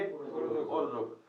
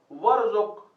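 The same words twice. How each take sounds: First: "वर्जुक" dragged out very slowly and softly; slow, soft mistaken pronunciation; slow wrong reading. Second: "वर्जुक" said louder, each sound clear; loud, clear classroom recitation; recited word. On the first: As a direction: show the wrong reading without the waw. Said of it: "कैसे पढ़ेंगे?". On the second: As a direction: announce the Arabic word to the class. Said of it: "आप अगर वाओ छोड़ देंगे". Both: Shown as a demonstration.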